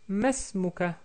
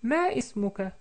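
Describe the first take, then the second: First: It has three syllables, with 'ma' and 'is' merged. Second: It has four syllables, with 'ma' and 'is' separate.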